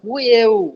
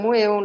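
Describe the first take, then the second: First: The word begins with a b sound. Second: The word begins with an m sound. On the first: The speaker calls it right. "এটা বুয়েউর মতো উচ্চারণ হইব" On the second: The speaker calls it wrong. "এটা মুয়েও না"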